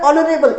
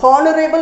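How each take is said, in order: First: The word starts with a vowel, no h. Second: The word starts with an audible h sound. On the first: The speaker calls it right. "एच आपका silent है। Sound आपका ओ letter से आया है" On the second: The speaker calls it wrong. "It's not हॉनरेबल नहीं बोलेंगे इसको"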